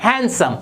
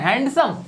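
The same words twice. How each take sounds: First: हैंडसम with a silent D, "HAN-sum"; correct pronunciation. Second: हैंडसम with the D sounded, "HAND-sum"; wrong pronunciation. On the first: Teacher repeats the model for learners, हैंडसम without the D. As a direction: drop the D from हैंडसम. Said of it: "ये होता है". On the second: Teacher shows learners the common mistake, हैंडसम with a hard D. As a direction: pronounce the D in हैंडसम. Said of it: "ये हैंडसम नहीं होता". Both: Shown as a demonstration.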